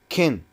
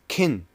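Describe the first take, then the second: First: The word is said in a reduced form. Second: The same.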